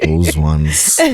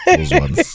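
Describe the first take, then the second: First: Low flat "Those ones." sinking down; deadpan repeat. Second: High squeaky "Those ones." with a sneer; mocking jab. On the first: Repeating the dig at the rival brand, low deadpan. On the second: Teasing the brand that won't sponsor the show, high mocking squeak. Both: Real, not acted.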